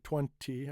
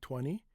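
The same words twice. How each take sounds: First: The second T is clearly pronounced. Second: The second T is dropped after the N. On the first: The speaker calls it wrong. "I don't say twenty" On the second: The speaker calls it right. "I say twenty"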